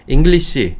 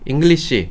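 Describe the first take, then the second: Both takes have the same delivery.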